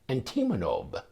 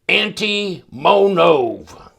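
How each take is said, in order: First: The name is said in a plain accent. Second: The name is said with a Southern drawl. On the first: The speaker calls it right. "It's like you mispronounced that name" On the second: The speaker calls it wrong. "let's do it the Arkansas way"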